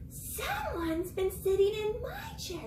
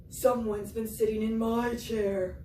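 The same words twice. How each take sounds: First: Higher, slow Mama Bear voice; high-pitched Mama Bear. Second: A hint of a gruff Papa Bear; Papa Bear voice, lightly done; lightly voiced Papa Bear. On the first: Acted. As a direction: lift it into a slow mother bear. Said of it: "Mama Bear says". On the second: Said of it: "He said".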